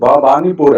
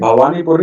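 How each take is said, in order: First: The second consonant is a b sound. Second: The second consonant is a v sound. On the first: The speaker calls it right. "भवानी बी" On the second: The speaker calls it wrong. "ये भवानीपुर नहीं"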